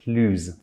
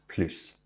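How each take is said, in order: First: The word ends with a z sound. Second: The word ends with an s sound. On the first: "we do the liaison between the S and the vowel or silent H, and it becomes plus" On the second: "then it's pronounced plus"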